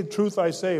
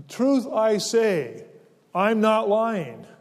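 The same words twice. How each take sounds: First: Said in the usual way. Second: Slow, weighty stress on "Truth" and "not"; emphatic doubled phrase. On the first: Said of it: "it would be okay just to say". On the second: Shown as a demonstration. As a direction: lean hard on "Truth I say", then "I'm not lying". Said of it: "he says it again for emphasis".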